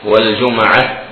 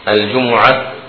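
First: The m is followed by an a vowel. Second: The m is followed by a u vowel. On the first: "بفتح الميم لغة" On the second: "بضم الميم"

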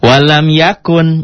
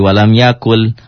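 First: The second word ends with an n sound. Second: The second word ends with an l sound. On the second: "jadi walam yakul. L-nya jadi double"

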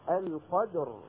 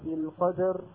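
First: The dal's echo stays pure, without an i colour. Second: The dal's echo leans toward an i vowel. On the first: The speaker calls it right. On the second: The speaker calls it wrong.

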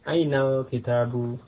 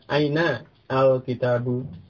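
First: The words run together and the article's vowel drops. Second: The words are separate and the article's vowel sounds. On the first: "baiknya itu bersambung" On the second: "ya tidak mengapa dibaca terpisah"

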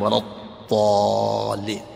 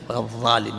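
First: A heavy d-like sound from the tongue's side. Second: A lighter th-like sound from the tongue tip. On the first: The speaker calls it right. "ثقيلة من طرف حافة اللسان" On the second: The speaker calls it wrong. "أما هذه خفيفة، ولا الضالين من طرف اللسان"

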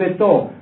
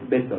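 First: The stress is on the last syllable. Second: The stress is on the first syllable. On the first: It is the French way of saying the word. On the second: It is the Spanish way of saying the word.

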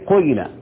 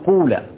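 First: The first vowel is i tinged with u rounding. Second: The first vowel is a pure u sound. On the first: "أشم الكسر ريحة الضم" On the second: "إخلاص الضم"

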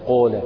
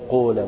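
First: The long vowel is rounded toward 'oo'. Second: The same.

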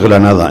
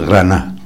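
First: The final syllable is fully pronounced. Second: The final syllable is dropped. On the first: This is the standard form of the name. The speaker calls it wrong. "No es Granada" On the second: This is how local people say the name. The speaker calls it right. "es Grana. ... Tú pregunta a todos los habitantes"

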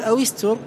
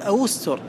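First: The waw is followed by an i vowel. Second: The waw is followed by a u vowel. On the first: "بكسر الواو" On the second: "بالضم"

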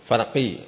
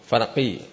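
First: The consonant is a deep back qaf sound. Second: The same.

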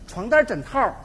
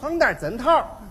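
First: It is spoken with a sweet Beijing accent. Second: It is spoken with a crisp Tianjin accent. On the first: "我给您学学啊。" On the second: "到了天津就变味了。"

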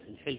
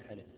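First: The first vowel is i, the lam unvowelled. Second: The first vowel is not i. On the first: The speaker calls it right. "شكلوها" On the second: The speaker calls it wrong. "مو الحلف"

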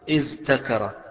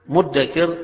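First: A dh sound is followed by a t. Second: The middle consonants merge into a doubled d. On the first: "أصلها" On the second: "مدكر أصلها"

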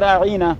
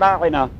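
First: An added ya sound is said with heavy stress. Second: The word is said plainly with no added sound. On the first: He is our shepherd, as an insult. "اس کے ساتھ ایک یا لگا رہے تھے اسے ذرا زور سٹریس کر دے اس پہ" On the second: Please show consideration for us. "راعنا کا یہ معنی ہے کہ ہمارا بھی کچھ لحاظ کیا کریں"

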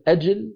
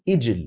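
First: The word begins with a glottal stop and 'a'. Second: The word begins with a glottal stop and 'i'. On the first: One Arabic dialect says it this way. "من العرب من يقول أجل" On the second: Another Arabic dialect says it this way. "ومن العرب من يقول إجل"

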